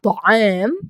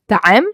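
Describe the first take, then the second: First: The first consonant is heavy and full-mouthed. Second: The first consonant is light and thin. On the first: The speaker calls it right. "طاء, like طعام" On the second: The speaker calls it wrong. "I pronounce it with the تاء, not طاء"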